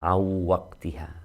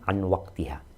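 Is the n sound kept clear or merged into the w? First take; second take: merged; clear. First: The n merges into the w with nasal sound. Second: The n is pronounced clearly before the w. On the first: It is read as Quran recitation. "nun sukun ketemu wawu jadinya idgham di gunnah" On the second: It is ordinary Arabic reading or speech. "tidak perlu menggunakan kaidah tajwid tersebut"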